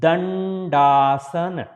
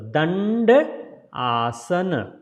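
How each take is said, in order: First: The two parts are joined without any break. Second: The two parts are said with a break between.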